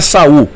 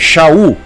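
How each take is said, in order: First: The name begins with a plain s sound. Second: The name begins with an sh sound. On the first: The speaker calls it wrong. "não é Saul ou Saulo" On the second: The speaker calls it right. "é Shaul"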